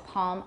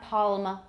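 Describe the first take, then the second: First: The L is faint, with only the tongue back tensed. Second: The L is fully pronounced as a complete L. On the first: "A lot of people have velarization for that L" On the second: "But it's not palm"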